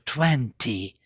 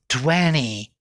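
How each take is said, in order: First: The t after the n is pronounced. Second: The t after the n is dropped. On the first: This is the older way of saying it. "instead of" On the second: This is how it is said now. "T disappeared already"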